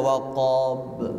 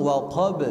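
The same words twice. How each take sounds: First: "waqab" with a long swung vowel and late b; swaying isbah. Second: "waqab" with short vowel and immediate bounce on b; direct qalqalah. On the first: Teacher showing inexact reading, "waqab" swayed. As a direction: drag out the "qab" of "waqab". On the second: Teacher shows correct way, "waqab" without swaying. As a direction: go straight to the b in "waqab". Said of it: "harus langsung". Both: Shown as a demonstration.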